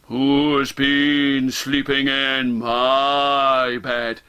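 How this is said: It is said in a deep, gruff voice. "In his deep, gruff voice"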